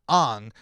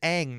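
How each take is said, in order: First: The vowel sounds like the one in long. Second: The vowel sounds like the one in cat. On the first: The speaker calls it wrong. "not Ong" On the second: The speaker calls it right. "is going to be pronounced as Ang"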